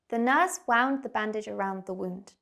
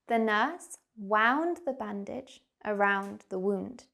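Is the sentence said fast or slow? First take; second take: fast; slow. First: The sentence is spoken at a fast pace. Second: The sentence is spoken at a slow pace. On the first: "I'm going to say the sentence quickly" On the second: "Let me say it again, but slower"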